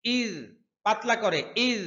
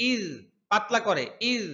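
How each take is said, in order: Both takes have the same delivery.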